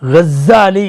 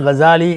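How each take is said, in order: First: The middle z sound is doubled and pressed. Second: The middle z sound is short and light. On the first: He is one who spins yarn for weaving. "கஸ்ஸாலி என்று நீங்கள் அழுத்தி படித்தால்" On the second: He comes from the village of Ghazala. "அழுத்தாமல் கசாலி என்று படித்தால்"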